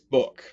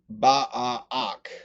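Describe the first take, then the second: First: The two vowel letters make one sound. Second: The two vowel letters are sounded separately. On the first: The speaker calls it right. "these two letters have a different sound when they're together" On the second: The speaker calls it wrong. "we don't say"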